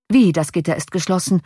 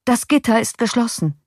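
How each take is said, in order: First: "Wie" stressed, then usual pitch; incredulous echo. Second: Higher-pitched "geschlossen", falling at the end; dismayed report. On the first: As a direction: echo "geschlossen" back as a puzzled question. Passenger echoes news in disbelief. (ungläubig nachfragend, Betonung auf „Wie“) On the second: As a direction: report "Das Gitter ist geschlossen" in alarm. Coachman reports the shut gate. (bestürzte Meldung, höhere Stimme) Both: A narrator's reading.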